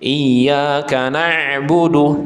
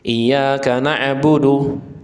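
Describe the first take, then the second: First: The ain sound is held too long. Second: The ain sound is cut too short. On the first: "ini terlalu terlalu panjang" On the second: "tidak boleh terlalu cepat, sehingga apa? Mantul"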